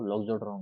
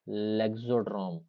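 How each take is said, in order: First: The first vowel sounds like 'o'. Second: The first vowel sounds like 'e'. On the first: The speaker calls it right. "वो लॉक्सोड्रोम होता है" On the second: The speaker calls it wrong. "लेक्सोड्रोम नहीं होता actual में"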